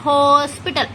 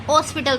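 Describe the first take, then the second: First: "हॉस्पिटल" with a clear H and long first vowel; sounded H. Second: "हॉस्पिटल" without the H, as "ospital"; wrong, dropped H. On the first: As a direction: stretch the opening "Ho" of "हॉस्पिटल". ("हॉस्पिटल" में ह साफ़, ज़रा खींचकर) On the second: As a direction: start "हॉस्पिटल" straight on the O. ("हॉस्पिटल" को ह हटाकर बोलें) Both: Shown as a demonstration. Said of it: "हॉस्पिटल तो नहीं होता".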